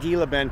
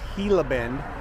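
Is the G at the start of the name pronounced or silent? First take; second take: pronounced; silent. First: The first word starts with a hard G sound. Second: The first word starts without a G sound. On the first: The speaker calls it wrong. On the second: The speaker calls it right. "Don't pronounce the G"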